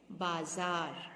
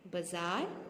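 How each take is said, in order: First: बाजार with both vowels long, "baa-zaar"; careful model "baazaar" for बाजार; correct pronunciation. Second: बाजार with short first vowel, "buh-zaar"; wrong pronunciation. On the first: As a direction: say बाजार lower, drawn out on both syllables. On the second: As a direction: say बाजार starting on a quick "ba". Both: Shown as a demonstration. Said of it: "गलत शब्द है".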